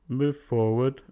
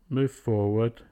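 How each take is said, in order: No difference in how they are said.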